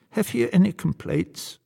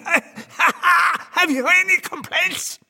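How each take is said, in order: First: High-pitched devil voice, politely enquiring; solicitous Old Nick. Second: High, slow gleeful cackling taunt; cackle, then crow it very high and drawn out; laughing devil. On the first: Acted. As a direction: ask as a little old devil host, pitched up. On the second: A narrator's reading. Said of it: "The devil is laughing".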